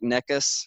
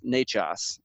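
First: The middle consonant is a hard k sound. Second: The middle consonant is a ch sound. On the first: The speaker calls it wrong. "So it looks like Necas" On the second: The speaker calls it right. "but it's Nechas"

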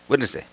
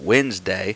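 First: The word is said very quickly. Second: The word is said at a slower pace. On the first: "They'd say it just really quick" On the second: "instead of Wednesday"

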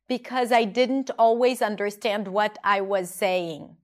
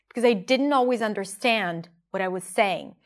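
First: "What I was" is fully pronounced, word by word. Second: "What I was" is reduced and run together. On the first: The speaker calls it wrong. "She doesn't say" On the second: The speaker calls it right. "Notice how she reduces the what I was"

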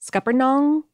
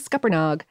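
First: The last syllable ends in 'ng', rhyming with song. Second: The last syllable ends without an 'ng' sound. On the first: This is the more technical way of saying it. "it's meant to rhyme with song. Is the more... Technical pronunciation" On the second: This is a regional way of saying it. "I'm saying Scuppernog, but I think that is a regional variation"

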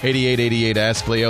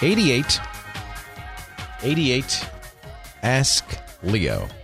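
First: It is said fast. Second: It is said slowly.

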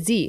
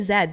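First: The letter is named the American way. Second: The letter is named in a non-American way. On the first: "while I was in the US, ... they say Z" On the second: "they don't say Z"

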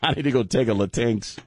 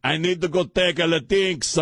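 First: It is said in his plain voice. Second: It is said in a put-on accent.

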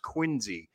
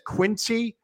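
First: The middle consonant is a buzzing z sound. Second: The middle consonant is a hissing s sound. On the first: This is how locals say the name. The speaker calls it right. "pronounces it Quincy with a Z" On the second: The speaker is not from the town. The speaker calls it wrong. "when somebody says Quincy, you know they're not from Quincy"

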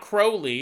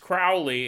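First: The first syllable rhymes with crow. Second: The first syllable rhymes with cow. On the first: The speaker calls it wrong. "It's not Crowley" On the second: The speaker calls it right. "I guess that rhymes with cow"

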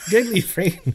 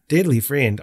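First: It is said in an Irish accent. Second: It is said in an Australian accent. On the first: The speaker calls it wrong. "I went Irish for a second there" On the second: The speaker calls it right. "should I read it in an Australian accent?"

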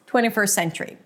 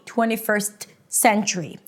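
First: The T is dropped, leaving one long S. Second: The T is pronounced between the two S sounds. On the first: The speaker calls it right. "If you just pronounce it with one long S" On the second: The speaker calls it wrong. "That's not how you want to say it"

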